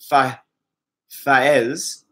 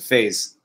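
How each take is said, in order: First: The name is said with two separate vowel sounds. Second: The name is said as one syllable, like faze. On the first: This is the original pronunciation of the name. "pronounced Fa Faez" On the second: This is how English speakers say the name. "English speakers pronounce it Faze"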